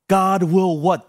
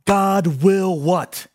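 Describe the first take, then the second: First: Said in the usual way. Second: Slow, drawn-out question hanging in the air; slowly, inviting the crowd to answer. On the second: Shown as a demonstration. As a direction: stretch "God will what?" out slowly, leaving space after "what?". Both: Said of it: "But here's the other".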